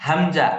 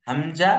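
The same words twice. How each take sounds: The two takes are said the same way.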